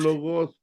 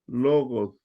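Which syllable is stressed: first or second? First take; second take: second; first. First: The stress is on the second syllable. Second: The stress is on the first syllable. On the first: The speaker calls it wrong. "muchos dicen logos" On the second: The speaker calls it right. "el acento realmente va en la primera O"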